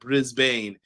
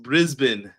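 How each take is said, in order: First: The name is said just as it is spelled. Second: The name is said in its reduced local form. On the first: The speaker calls it wrong. "not Brisbane" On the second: The speaker calls it right. "It's pronounced Brisbane"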